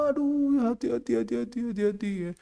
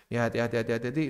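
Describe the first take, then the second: First: High, soft, fretting parent voice; mocking soft parent. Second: Said in the usual way. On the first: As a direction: fuss over the child gently. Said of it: "Orang tuanya terlalu lembek". (mengejek orang tua lembek, tinggi dan lembut) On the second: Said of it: "repeat in own voice".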